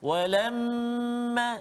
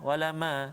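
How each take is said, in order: First: The nasal m is held for two counts. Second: The nasal m is rushed and cut short. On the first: The speaker calls it right. "jadi kita tak boleh laju kat situ" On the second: The speaker calls it wrong. "jangan walama walama, tak boleh"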